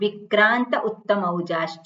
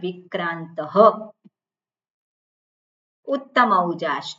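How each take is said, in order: First: The words are joined and the visarga is dropped. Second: The words are separated and the visarga is pronounced. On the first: The words are recited together as in chanting. "જ્યારે સાથે બોલતા હોઈએ જ્યારે chanting કરતા હોઈએ" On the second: The two words are treated as separate words. "બે શબ્દને છૂટા પાડી દીધા તો ત્યારે બોલવું પડે"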